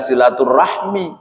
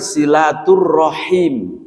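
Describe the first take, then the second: First: The word ends with the sounds 'rahmi'. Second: The word ends with the sounds 'rahim'. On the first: The speaker calls it wrong. "bukan silaturahmi" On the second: The speaker calls it right. "yang benar silaturrahim"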